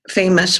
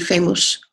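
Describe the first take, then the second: First: The second vowel is reduced and short. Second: Every vowel is pronounced fully, as spelled. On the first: The speaker calls it right. "would be English" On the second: The speaker calls it wrong. "over-accented in Russian would be famous"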